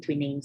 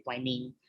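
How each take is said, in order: First: Twining said with an ee, "TWEE-ning"; first pronunciation variant. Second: Twining said with a long i, "TWY-ning"; second pronunciation variant. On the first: Teacher showing how some people say the name, Twining as "twee-ning". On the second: Teacher showing the other way people say it, Twining as "TWY-ning". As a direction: rhyme the start of Twining with "why". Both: Shown as a demonstration. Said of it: "I really don't know how to pronounce it".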